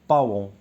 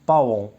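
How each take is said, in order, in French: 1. La voyelle se divise en deux sons, a-on. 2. La voyelle se divise en deux sons, a-on.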